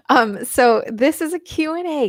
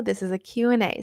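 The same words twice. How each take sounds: First: Higher and louder, announcing the Q and A; emphatic announcement. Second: Said in the usual way. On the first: Shown as a demonstration. Host announcing to viewers, raised and emphatic. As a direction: call it out to the viewers. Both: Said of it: "If you didn't know".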